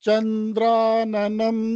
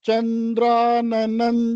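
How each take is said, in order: The two takes are said the same way.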